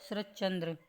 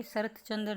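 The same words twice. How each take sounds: First: शरत चंद्र fused as sharach-chandra; correct joined form. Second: शरत चंद्र as two words, sharat chandra; wrong, separated words. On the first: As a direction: run शरत चंद्र together on a doubled ch. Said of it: "क्या लिखा जाएगा इसको". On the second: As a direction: keep the t and ch apart in शरत चंद्र. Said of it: "शरत चंद्र नहीं". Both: Shown as a demonstration.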